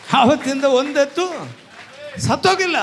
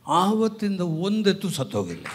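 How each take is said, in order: First: High, loud and broken in two; emphatic shouted testimony. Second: Said in the usual way. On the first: Real, not acted. Preacher testifying no ox died since that day, emphatic shouted testimony. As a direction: drive each half home at high pitch. Repeats testimony at full force.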